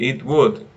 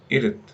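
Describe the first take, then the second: First: Both words are said fully and separately. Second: The words merge into a short two-syllable form. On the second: "it's pronounced ... like this"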